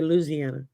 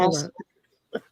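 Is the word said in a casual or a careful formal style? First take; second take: casual; careful formal. First: It is said in a relaxed, everyday local way. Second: It is said in a careful, polished telephone voice. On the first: "I say Louisiana" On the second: "Unless I'm speaking in my telephone voice, and then it's"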